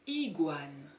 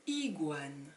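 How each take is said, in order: The two takes are said the same way.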